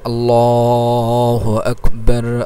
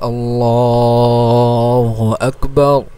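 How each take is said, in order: The two takes are said the same way.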